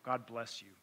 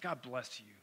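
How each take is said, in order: First: It is said in a sincere, earnest tone. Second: It is said in a patronizing, condescending tone.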